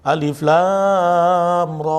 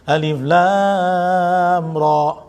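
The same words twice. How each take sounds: First: Alif lam ra with the ra held too long; wrong stretched ra. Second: Alif lam ra, slow, with ra kept to two beats; short ra. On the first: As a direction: demo the mistake on ra, dragged out. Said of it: "Ah, salah". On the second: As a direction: show ra held only briefly. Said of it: "Ra tuh cuma dua". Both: Shown as a demonstration.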